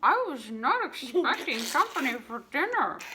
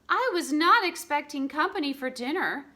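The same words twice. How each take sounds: First: It is said muffled, as if mouth full. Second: It is said in a clear, normal voice.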